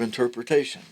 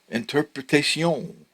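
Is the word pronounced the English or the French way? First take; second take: English; French. First: It is pronounced the English way. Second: It is pronounced the French way. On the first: "instead of interpretation" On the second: "Just pronounce it the way the French pronounce it"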